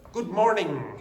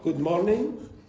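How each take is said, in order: First: Morning ends with an ng sound. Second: Morning ends with a plain n sound. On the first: The speaker calls it right. "instead of good morning" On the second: The speaker calls it wrong. "So they very often change it to n"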